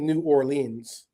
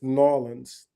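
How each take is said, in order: First: The word 'New' is said as a full syllable. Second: The word 'New' shrinks to a single 'n' sound. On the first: The speaker calls it wrong. "you don't say New Orleans" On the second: The speaker calls it right. "as if the word is N apostrophe O R L E A N S"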